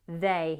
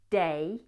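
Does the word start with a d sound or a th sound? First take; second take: th sound; d sound. First: The word starts with a soft th sound. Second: The word starts with a hard d sound. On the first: "rather than they" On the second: "he's saying day"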